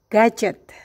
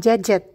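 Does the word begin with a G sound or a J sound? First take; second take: G sound; J sound. First: The word begins with a hard G sound. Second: The word begins with a soft J sound. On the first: The speaker calls it right. "pada suku kata pertama berbunyi G" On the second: The speaker calls it wrong. "Beberapa kali saya mendengar orang mengatakan gadget"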